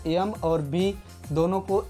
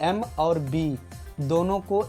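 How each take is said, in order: No difference in how they are said.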